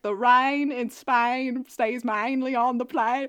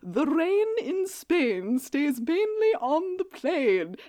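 First: It is said in a working-class street accent. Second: It is said in a posh upper-class accent.

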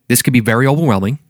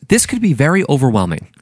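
First: The phrase is spoken quickly and slurred together. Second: The phrase is spoken slowly and clearly. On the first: The speaker calls it wrong. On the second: The speaker calls it right.

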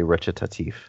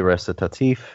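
First: The word is pronounced in an Italian manner. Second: The word is pronounced in a French manner. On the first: "If you're getting it from Italian, you say recitatif" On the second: "if you're getting it from French, you say recitatif"

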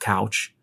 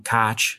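First: The vowel is the standard 'ow' sound of couch. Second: The vowel sounds like 'cotch', in the Pittsburgh manner. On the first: "instead of couch" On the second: "you'll hear us say from time to time, cotch instead of couch"

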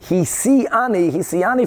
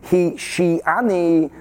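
First: The middle syllable begins with an s sound. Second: The middle syllable begins with an sh sound. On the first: The snake seduced her, as in marriage. "she said it with the sin" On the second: The snake deceived her. "the Pshat is with a shin"

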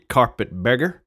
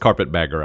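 First: The second word is said with a 'beg' vowel. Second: The second word is said with a 'bag' vowel. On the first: The speaker calls it wrong. "I was mispronouncing it" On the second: The speaker calls it right. "I know it's carpet bagger"

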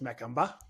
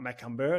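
First: The word ends with an 'ah' sound. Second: The word ends with an 'er' sound. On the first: The speaker calls it right. "it's Macumber" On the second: The speaker calls it wrong. "not Macumber"

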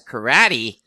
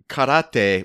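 First: It is said with an English pronunciation. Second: It is said with a Japanese pronunciation. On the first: The speaker calls it wrong. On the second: The speaker calls it right.

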